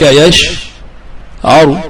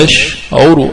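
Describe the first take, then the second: First: يشعر said yash-'aru, a after the ayn; fatha on the ayn. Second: يشعر said yash-'uru, u after the ayn; damma on the ayn. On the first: Teacher shows the expected guttural form, fatha on ayn. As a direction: say يشعر slowly, split, with a after ع. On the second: Teacher shows the attested form, damma on ayn. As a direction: say يشعر slowly, split, with u after ع. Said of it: "بالضم". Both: Shown as a demonstration.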